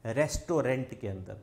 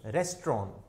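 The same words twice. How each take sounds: First: रेस्टोरेंट as "res-to-rent", the nt sounded; wrong pronunciation. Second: रेस्टोरेंट as "rest-ron", no final T; correct pronunciation. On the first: Teacher showing students the wrong रेस्टोरेंट, "res-to-rent". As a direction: say रेस्टोरेंट with a full "rent" ending. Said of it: "गलत है". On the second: Teacher giving students the correct रेस्टोरेंट, "rest-ron". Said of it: "इसको अपन क्या बोलते हैं". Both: Shown as a demonstration.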